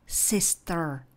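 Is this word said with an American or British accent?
American. American accent, with a hint of R at the end. "kdybyste chtěli americkou, ta by zněla spíše jako"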